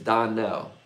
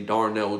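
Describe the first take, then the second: First: The name has no R sound after the first vowel. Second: The name has an R sound after the first vowel. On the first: The speaker calls it right. "It's Donnell. There's no A and R in Donnell" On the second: The speaker calls it wrong. "Most people like to say Darnell Jones"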